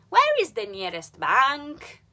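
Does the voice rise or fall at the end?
rise. The voice rises at the end.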